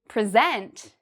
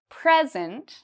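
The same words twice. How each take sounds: First: The stress is on the second syllable. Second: The stress is on the first syllable. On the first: It is a verb meaning to give a formal talk. "that's an action, that's a verb" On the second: It is a noun meaning a gift. "if I say louder and longer the first part"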